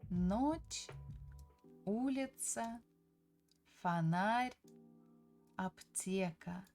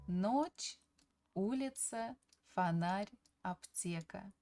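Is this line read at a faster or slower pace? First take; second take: slower; faster. First: The line is read at a slower pace. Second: The line is read at a faster pace.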